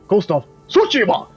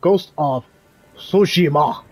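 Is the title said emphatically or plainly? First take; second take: emphatically; plainly. First: The title is said with strong, energetic emphasis. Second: The title is said plainly, without extra emphasis.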